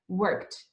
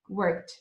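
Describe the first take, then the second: First: The word ends with a T sound. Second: The same.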